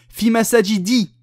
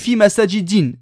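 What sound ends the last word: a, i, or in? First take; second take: i; in. First: The last word ends in a short i. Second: The last word ends in an i plus n. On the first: "j'ai pas mis tanwin, erreur" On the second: "Et si tu me dis fi masajidin, erreur"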